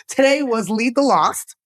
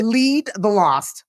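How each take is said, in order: First: Said through a light laugh; quick, amused, tossed off. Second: Spelling it out slowly; slow, deliberate repeat for clarity; slow and clear. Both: Real, not acted. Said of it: "what was it?".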